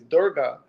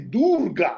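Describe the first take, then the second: First: The name is said in a plain English way. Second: The name is said with exaggerated foreign sounds. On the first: This is how most people say the name. "most people say that" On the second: The speaker is trying too hard to sound authentic. "some people try to overcorrect and say Durga, like they, they just go all in"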